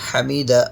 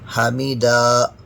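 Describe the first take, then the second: First: All vowels are kept short and even. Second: Some vowels are drawn out longer than others. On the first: The speaker calls it right. "इसे हम बिल्कुल भी नहीं खींचेंगे" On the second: The speaker calls it wrong. "कुछ हरकत को खींचते हैं ... ये भी तरीक़ा गलत है"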